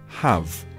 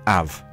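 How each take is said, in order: First: The word starts with a clear H sound. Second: The word starts without any H sound. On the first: "the word have" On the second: "you would drop the H sound, so it just sounds like av"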